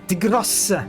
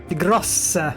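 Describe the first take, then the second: The two takes are said the same way.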